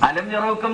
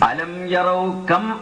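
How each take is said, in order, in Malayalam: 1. 'yaraw' ഉം 'kam' ഉം ചേർന്ന് ഒറ്റ വാക്കായി മാറുന്നു. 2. 'yaraw' ഉം 'kam' ഉം വേറെ വേറെ വാക്കുകളായി നിൽക്കുന്നു. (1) "അലം യറൗക്കം എന്ന് ഓതിപ്പോവും" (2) "സാവധാനം ഓതണം"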